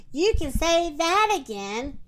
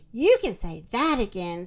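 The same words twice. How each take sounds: First: Lightly voiced turkey, pitched up; higher-pitched turkey character line; second turkey. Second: Lightly voiced turkey, pitched lower; low-pitched turkey character line; first turkey. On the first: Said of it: "the second turkey". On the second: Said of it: "said the first turkey". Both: A narrator's reading.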